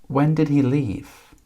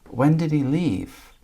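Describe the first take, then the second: The two takes are said the same way.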